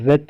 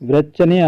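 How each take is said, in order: First: The word starts without a w sound. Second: The word starts with a w sound. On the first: The speaker calls it right. "ఇక్కడ డబ్ల్యూ silent, రెచ్ అంటాం" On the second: The speaker calls it wrong. "వ్రెచ్చని అనం అనమాట"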